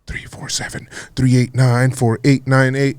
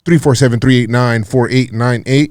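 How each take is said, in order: First: It is said at a slower pace. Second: It is said at a normal, quicker pace.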